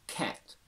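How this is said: Said in a General American accent. "General American"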